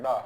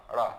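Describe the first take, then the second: First: डा with a firm retroflex stop, no flap; hard ḍ sound. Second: रा as a retroflex flap ṛā; flapped ṛ sound. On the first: Teacher showing the letter without its dot, डा with hard ḍ. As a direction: tap and hold a hard ḍ in डा. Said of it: "ये जो डा है". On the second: Teacher showing the dotted letter, रा as flapped ṛā. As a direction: flick the tongue quickly for ṛ in रा. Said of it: "इसके नीचे बिंदी लगा देते हैं". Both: Shown as a demonstration.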